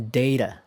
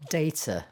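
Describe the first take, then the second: First: American "data" with the T flapped like a D. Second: British "data" with a crisp T. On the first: Teacher demonstrating American "data". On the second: Teacher demonstrating British "data" with a crisp T. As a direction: say "data" with a sharp T. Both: Shown as a demonstration.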